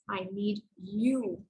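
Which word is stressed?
you. The stress falls on the word you. "I want to stress on the third word in the sentence"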